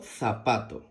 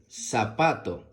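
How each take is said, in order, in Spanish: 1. El primer sonido es un sonido th. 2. El primer sonido es un sonido s.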